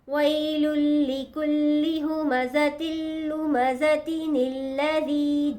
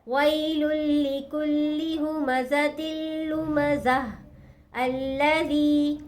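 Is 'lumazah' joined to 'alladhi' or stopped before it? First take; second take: joined; stopped. First: The words run together without a stop, linked. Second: There is a stop after 'lumazah', ending in h. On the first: "अगर हम मिलाकर पढ़ेंगे" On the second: "जब हम यहाँ ठहर गए, वक़्फ कर दिया हमने"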